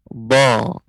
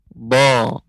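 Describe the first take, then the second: First: The lips stay in place while the tongue extends. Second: The same.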